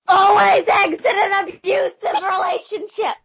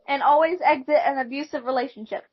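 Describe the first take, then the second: First: It is said much louder. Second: It is said at normal volume.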